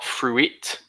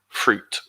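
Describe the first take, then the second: First: The word is said with two syllables. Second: The word is said with one syllable. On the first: The speaker calls it wrong. "it's not fruit" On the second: The speaker calls it right. "one word, one syllable"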